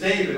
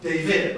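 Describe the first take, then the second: First: The stress falls on the first syllable. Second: The stress falls on the second syllable. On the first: The speaker calls it right. "So my name is David" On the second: The speaker calls it wrong. "It's not David"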